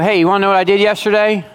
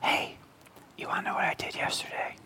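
First: It is said in a normal speaking voice. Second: It is said in a whisper.

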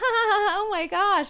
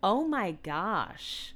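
First: It sounds amused and giggly. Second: It sounds genuinely uncomfortable.

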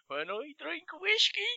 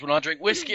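First: It is said in an imitated film-character accent. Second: It is said in the speaker's ordinary accent. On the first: The speaker calls it right. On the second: The speaker calls it wrong.

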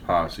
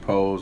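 First: The word is said as two syllables, 'posse'. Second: The word is said as one syllable, 'pose'. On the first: The speaker calls it wrong. "I thought it was Posse" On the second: The speaker calls it right. "That's how you pronounce it"

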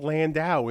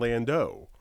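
First: The final syllable has the vowel of 'out'. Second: The final syllable lacks the vowel of 'out'. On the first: The speaker calls it wrong. "why are you saying Landau instead of Landau? ... but it's not an out" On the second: The speaker calls it right. "instead of Landau"

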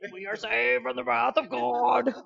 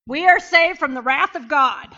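First: It is said in a deep, dramatic voice. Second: It is said in a normal speaking voice.

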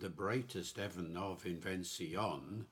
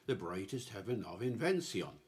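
First: 'Invention' has two stresses, with a final extra beat. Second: 'Invention' has one stress, with no final extra beat. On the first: The word fits the five-beat verse line. "with its five-beat line, really does suggest invention" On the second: The word is said as in everyday speech. "With just one stress on the last word"

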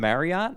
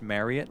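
First: The word does not rhyme with chariot. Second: The word rhymes with chariot. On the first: The speaker calls it wrong. "we've all been pronouncing it wrong" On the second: The speaker calls it right. "it's actually pronounced Marriott, like chariot"

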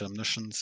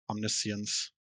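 First: It is pronounced the American English way. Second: It is pronounced the British English way. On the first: "So in American, it's what you said" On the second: "and British English, it's"

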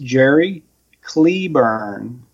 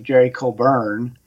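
First: The first vowel of Claiborne is long E. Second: The first vowel of Claiborne is not long E. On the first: This is how the name is properly said. The speaker calls it right. "pronounced properly, ... as if it Jerry the Cle- E was long" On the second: This is how the name is commonly said. The speaker calls it wrong. "famously known as"

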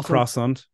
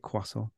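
First: Croissant is pronounced the anglicized English way. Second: Croissant is pronounced the French way. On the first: The speaker calls it wrong. "I don't say croissant" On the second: The speaker calls it right. "the way it should be said because it's French"

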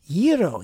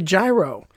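First: It is said with the Greek pronunciation. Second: It is said with the local American pronunciation. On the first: This is the way the dish is named in Greek. "because that's the Greek pronunciation" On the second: This is the regional way of naming the dish. "that's what we do in Pittsburgh"

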